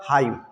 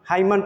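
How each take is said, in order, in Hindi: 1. यह शब्द M ध्वनि पर खत्म होता है। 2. इस शब्द के अंत में एक अतिरिक्त N ध्वनि जुड़ती है। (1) "इसका सही साउंड होगा हाइम" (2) "हाइमन पढ़ते हैं लोग, जो कि गलत साउंड है"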